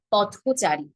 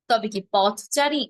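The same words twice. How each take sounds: First: পথচারী said slowly with an ও after পথ, pɔtʰocari; correct pronunciation. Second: পথচারী with an open অ after পথ, pɔtʰcari; wrong take of পথচারী, rising. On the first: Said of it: "না". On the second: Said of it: "না, পথচারী". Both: Shown as a demonstration.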